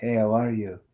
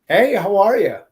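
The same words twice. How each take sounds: First: It is said quietly with little energy. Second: It is said with lively, high energy. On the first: The speaker calls it wrong. "Instead of saying" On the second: The speaker calls it right. "you need more energy. Like for example, you say"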